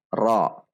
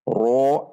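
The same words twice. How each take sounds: First: The r is said with raised tongue root. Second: The r is said with rounded lips. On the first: The speaker calls it right. "namun dibaca dengan menaikkan pangkal lidah" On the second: The speaker calls it wrong. "tidak dibaca dengan membulatkan bibir"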